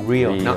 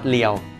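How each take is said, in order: First: The word starts with an R sound. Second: The word starts with an L sound. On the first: The speaker calls it right. "real okay real not เลี้ยว" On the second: The speaker calls it wrong. "not เลี้ยว"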